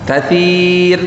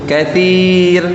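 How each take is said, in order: No difference in how they are said.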